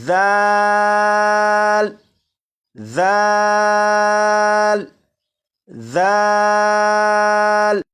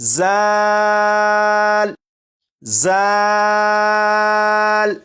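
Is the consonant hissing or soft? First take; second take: soft; hissing. First: The consonant is soft, without a whistling hiss. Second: The consonant has a sharp whistling hiss. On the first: The speaker calls it right. "नरमी से पढ़ेंगे, यानी सीटी की आवाज के बगैर" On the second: The speaker calls it wrong. "सीटी की आवाज के साथ पढ़ें"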